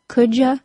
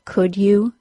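First: The word 'you' is reduced to 'ya'. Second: The word 'you' is pronounced fully.

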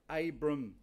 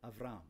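First: The name is said with a b sound. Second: The name is said with a v sound.

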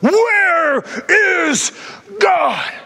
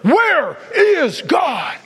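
First: It is said loudest of all. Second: It is said louder still.

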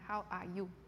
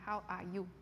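First: Each consonant and vowel is clearly articulated. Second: Each consonant and vowel is clearly articulated.

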